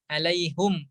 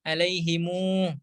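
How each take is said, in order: First: The word ends in hum with a u vowel. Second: The word ends in himu with an added u. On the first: This is the reading with a u vowel before the m. "alaihum tadi dengan dhamma" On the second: This is the reading with the final m linked to a vowel. "dengan silah mim jamak"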